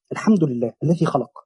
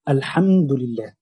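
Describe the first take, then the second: First: Said in the usual way. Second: Drawn-out Quranic recitation of الحمد لله; تلاوة بطيئة; slow recitation. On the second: Shown as a demonstration. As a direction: stretch الحمد لله slowly, as in tilawa.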